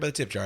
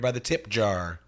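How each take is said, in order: First: The words tip jar are said plainly. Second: The words tip jar are heavily emphasized.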